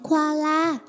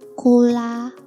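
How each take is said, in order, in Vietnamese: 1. Từ này nghe giống koala, có thêm âm 'a'. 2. Từ này nghe giống tên đồ uống cola. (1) "Đọc là Koala nhé đi" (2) "Cậu mà đọc thế là ra thành nước ngọt Coca-Cola mất rồi"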